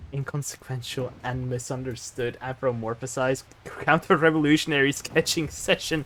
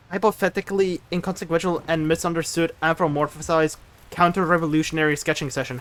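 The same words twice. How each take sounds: First: Softer, steady and deliberate; measured, quieter enunciation; careful re-read. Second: Fast, rattled off in one breath; speed-read the mouthful; rapid tongue twister. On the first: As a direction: prove every word can be said. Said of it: "but you failed". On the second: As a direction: rush the long words like a dare. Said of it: "You tried to make me say difficult words". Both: Shown as a demonstration.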